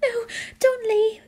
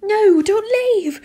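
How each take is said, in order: First: High, whimpering plea; pleading. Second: Loud, high, drawn-out wail; pleading. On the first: Student begs teacher to stay, pleading. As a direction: beg in a high tearful voice. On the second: Student begs teacher to stay, loud desperate plea. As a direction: cry it out desperately, stretching each word. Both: A narrator's reading. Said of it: "I pleaded".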